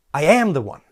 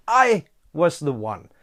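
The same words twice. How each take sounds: First: "am" punched as a correction; stress on AM. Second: "I" set apart and stressed. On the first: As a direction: hit "am" firmly, then fall away. Restates it in present tense. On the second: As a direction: lean on "I", then let the rest fall. Corrects himself, then restates with emphasis. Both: Real, not acted.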